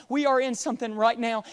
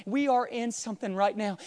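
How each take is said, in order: Both takes have the same delivery.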